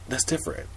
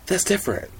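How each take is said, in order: First: Said in the usual way. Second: High, stressed "that's different"; "that's" lifted high and hit hard; emphatic. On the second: Real, not acted. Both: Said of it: "repeated for emphasis".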